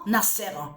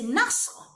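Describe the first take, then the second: First: A vowel separates the s and the r. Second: No vowel separates the s and the r. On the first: The speaker calls it wrong. "que vous prononcez en disant Nasser. Mais ça ne se dit pas Nasser" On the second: The speaker calls it right. "C'est Nasr"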